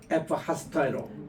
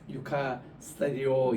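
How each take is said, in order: First: The word begins with an 'ef' sound. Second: The word begins with a 'yu' sound. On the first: This is how it is said in Greece today. The speaker calls it right. "U라고 읽지 않고 F라고 읽,더라고" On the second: This is the older way taught in seminary. The speaker calls it wrong. "옛날에는 유카, 유카 스타디오 이렇게 우리가 신학교에서 배웠는데"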